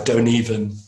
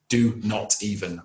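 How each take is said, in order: First: Not is contracted and joined to do. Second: Not is said as a separate full word. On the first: "it's kind of hidden in the contractions" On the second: "we teach this as not even"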